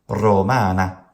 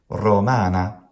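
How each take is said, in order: Both takes have the same delivery.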